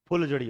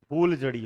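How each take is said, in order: First: The first vowel is short. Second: The first vowel is long. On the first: The speaker calls it right. "फुल जड़ी होता है" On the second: The speaker calls it wrong. "नहीं"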